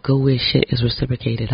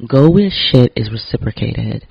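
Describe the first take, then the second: First: Said in the usual way. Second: Slow and louder, each word weighted; slow emphatic motto. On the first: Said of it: "as my great producer Jared Solomon said". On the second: Shown as a demonstration. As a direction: spell it out slowly like a rule. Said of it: "repeated motto".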